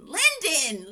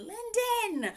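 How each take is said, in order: First: Slow, sing-song London, London; playful slow repetition of London; drawn-out name. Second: London sung up high on one note; sung, float London up high like a tune; sung, high sing-song London as a playful flourish; high sung name. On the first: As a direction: savour the name London slowly. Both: Shown as a demonstration. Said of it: "correcting the name London".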